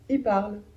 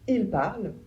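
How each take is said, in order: First: Only the i of il is pronounced. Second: The l of il is clearly pronounced.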